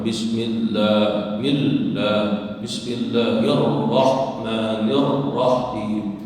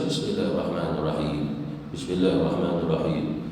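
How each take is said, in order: First: Bismillahirrahmanirrahim very slow, ll and both rr held long; teacher's slow demo, "Millah" with a held double l; three shaddahs stressed. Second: Bismillahirrahmanirrahim run through low with single, unpressed consonants; low, unstressed wrong reading of "Bismillahirrahmanirrahim"; shaddah dropped. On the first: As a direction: lean on each doubled consonant in "Bismillahirrahmanirrahim". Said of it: "di situ ada tiga syaddah". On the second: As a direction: glide over the ll and rr in Bismillahirrahmanirrahim. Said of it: "Jangan dibaca". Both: Shown as a demonstration.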